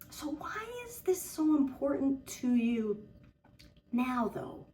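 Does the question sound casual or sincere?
sincere. It is asked in a sincere, probing tone.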